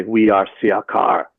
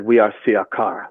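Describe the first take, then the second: First: Slow, lowered voice of a channeled alien being; a lowered, slow retelling of the being's name; voice goes down. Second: Said in the usual way. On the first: Retold or imitated. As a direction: intone it slowly like an entity speaking through you. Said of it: "My voice goes down". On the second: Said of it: "And I said".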